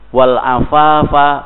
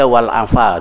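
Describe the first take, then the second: First: The word is said in full with its ending. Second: The word is cut short, dropping its ending. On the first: It means purity. The speaker calls it right. "Afaf kesucian" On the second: The meaning is lost. The speaker calls it wrong. "dibaca wal afa saja"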